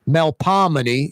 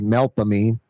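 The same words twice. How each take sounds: First: It uses the standard pronunciation of the name. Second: It uses the local pronunciation of the name. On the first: "is the correct pronunciation" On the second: "We say"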